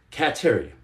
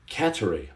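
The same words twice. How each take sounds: First: "Cattery" with a full TERRY, cat-TEH-ree; trying a pronunciation. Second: "Cattery" run together with a weak middle, CAT-er-ee; trying a pronunciation. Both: Shown as a demonstration. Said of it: "this is gonna be hard".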